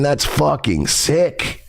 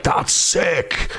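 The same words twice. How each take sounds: First: Slow, disapproving emphasis on "sick"; mean "sick" as disturbed, said slowly; deliberate, serious "that's fucking sick"; not the cool way. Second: Mock-admiring "that's sick", drawn out slowly; imitating someone who finds it cool. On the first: Real, not acted. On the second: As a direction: stretch it out like approving slang. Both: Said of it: "not in the cool way".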